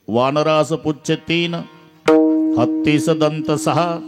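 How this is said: The first pause comes after the word teen. The monkey has three tails and the elephant six tusks. "वानरास पुच्छ तीन, तीन शब्दाचं वानर"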